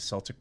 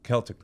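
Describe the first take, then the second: First: Celtic said with an s sound, SEL-tic; Celtic starting with a soft s. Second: Celtic with a hard k, KEL-tic; Celtic, starting on a clear k. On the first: Real, not acted. Host says Celtic with a soft s before being corrected. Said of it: "It's Celtic cross". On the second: Shown as a demonstration. Host repeats the correction, Celtic with a hard k. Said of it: "Celtic, sorry".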